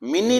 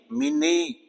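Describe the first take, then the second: First: मिनी with a short i ending; the wrong version, मिनी with a clipped i; wrong pronunciation. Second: मिनी with a long high ee at the end; correct pronunciation. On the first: Teacher names the wrong way to say मिनी. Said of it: "मिनी नहीं है ये भी". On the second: Teacher gives the right मिनी with a big ee. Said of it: "बड़े ई की आएगी आवाज". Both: Shown as a demonstration.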